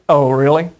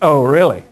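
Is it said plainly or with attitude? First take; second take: plainly; with attitude. First: It is said plainly, without attitude. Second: It is said with a sarcastic attitude.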